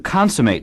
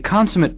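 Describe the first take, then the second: First: It has the verb pronunciation of the word. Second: It has the adjective pronunciation of the word. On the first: To finish something or make it complete. "Consummate is also a verb. Notice the different pronunciation" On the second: Perfect or supremely skilled. "A consummate pianist is an extremely good one"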